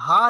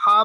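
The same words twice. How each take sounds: First: ہا as a plain breathed h; wrong soft ha. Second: ہا as a tight pharyngeal ح; correct deep ha. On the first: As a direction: say ہا lightly, without throat constriction. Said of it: "ہا نہیں پڑھنا". (ہا کو عام ہلکی ہا کی طرح) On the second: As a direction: squeeze ہا from mid-throat. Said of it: "ہا کو ہا پڑھنا ہے". (ہا کو حلق سے حا کی طرح) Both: Shown as a demonstration.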